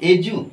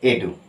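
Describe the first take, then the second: First: The consonant is a j sound. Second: The consonant is a plain d sound. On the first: The speaker calls it right. "এজু, এজু, not এডু" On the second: The speaker calls it wrong. "নট এডু"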